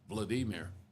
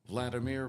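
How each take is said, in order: First: The stress is on the second syllable. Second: The stress is on the first syllable. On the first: This is how it is said in Russian. The speaker calls it right. "technically should be pronounced Vladimir because uh, Russian" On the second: This is how most people say the name. The speaker calls it wrong. "it's like everybody pronounces uh, Putin's name"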